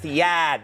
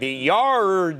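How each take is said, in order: First: The r sound in yard is dropped. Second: The r sound in yard is pronounced. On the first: The speaker calls it right. "it's the yad, the yad" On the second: The speaker calls it wrong. "I'm going, the yard. No"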